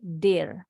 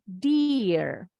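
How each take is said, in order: First: Dear with a short, lax vowel close to "dehr"; correct short vowel. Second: Dear drawn out with a long EE, deeer; the mistaken reading dear with a stretched eee; wrong long vowel. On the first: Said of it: "bunyinya pendek". (dear dengan bunyi I pendek, der) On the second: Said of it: "Jadi bacanya bukan dear". (dear dibaca salah dengan I panjang, diir) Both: Shown as a demonstration.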